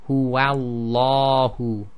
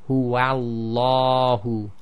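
The two takes are said the same way.

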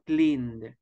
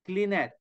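First: The ending is said as a plain d sound. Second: The ending is said as an extra syllable. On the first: The speaker calls it right. "We say cleaned. the pronunciation is letter V" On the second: The speaker calls it wrong. "we don't say cleaned"

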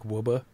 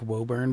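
First: The name is clipped, with the final r dropped. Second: The name is said in full, as spelled. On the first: "but it's like Wubba" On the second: "there's the one that's like Woburn"

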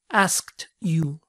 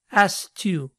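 First: The K sound in asked is clearly pronounced. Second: The K sound in asked is left out. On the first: "debería ser asked you" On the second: "omite el sonido K"

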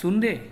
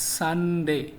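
First: The first vowel sounds like 'oo'. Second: The first vowel sounds like 'uh'. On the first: The speaker calls it wrong. "সুনডে না" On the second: The speaker calls it right. "সঠিক উচ্চারণ হচ্ছে সানডে"

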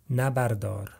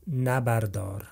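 The two takes are said the same way.

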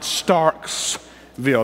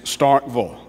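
First: There is an s sound before 'ville'. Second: There is no s sound before 'ville'. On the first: The speaker calls it wrong. "That's a no-no. It's not Starksville. There was no Revolutionary War guy named Starks" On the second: The speaker calls it right. "It's Starkville. Okay, all right"

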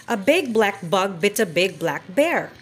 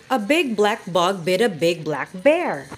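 Both takes have the same delivery.

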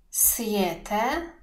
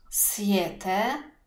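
The two takes are said the same way.

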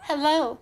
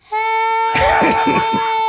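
First: It is said in a normal, everyday voice. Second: It is said excitedly, with a higher pitch.

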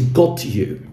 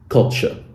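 First: The t and y stay separate sounds. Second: The t and y merge into ch. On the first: "a very famous example is got you" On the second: "when you put them together in connected speech and pronounce them quickly, they become gotcha"

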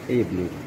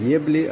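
First: The word begins with a plain 'e' sound. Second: The word begins with a 'ye' sound. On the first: The speaker calls it right. "а эбли" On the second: The speaker calls it wrong. "Не ебли"

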